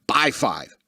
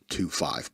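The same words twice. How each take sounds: First: Said in the usual way. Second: "To five" muttered much lower and softer; half-whispered "To five", lower and softer; muttered correction. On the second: Shown as a demonstration. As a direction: drop the voice low and quiet on "To five", a wry aside.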